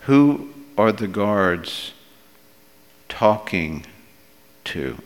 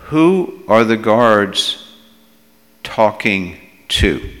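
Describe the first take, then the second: First: Pondering repeat. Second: Slow, firm question, WHO leaned on; emphatic question. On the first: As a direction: pause before "talking" and before "to", letting it drop. Same question repeated more softly. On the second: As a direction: put weight on "Who are the guards", then pause. Rhetorical question, first asking. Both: Real, not acted.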